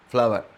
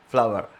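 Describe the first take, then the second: First: The final r sound is pronounced. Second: The final r sound is pronounced.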